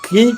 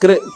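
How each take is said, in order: First: The syllable is said as plain ki, no r. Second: The syllable is said with a vocalic r sound. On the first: The speaker calls it wrong. "కీ కాదు" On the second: The speaker calls it right. "కృ కృ"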